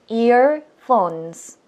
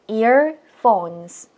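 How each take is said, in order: First: The word is said in two syllables. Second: The same.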